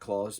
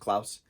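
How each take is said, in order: First: The name is said with an American pronunciation. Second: The name is said with a Dutch pronunciation. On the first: "not Claus, but we as Americans say Santa Claus" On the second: "in Dutch it's pronounced Klaus"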